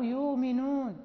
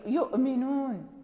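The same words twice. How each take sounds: First: A long u vowel replaces the glottal stop. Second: A glottal stop is heard before the m.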